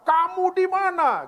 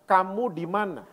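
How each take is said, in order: First: The question is asked in an angry tone. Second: The question is asked in a calm tone. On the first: The asker is furious and threatening. The speaker calls it wrong. "Dan sambil marah" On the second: The asker is searching for someone lost. The speaker calls it right. "Itu intonasinya tidak marah, sama sekali"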